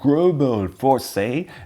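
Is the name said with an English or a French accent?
English. The name is said with an English accent. "a more English version"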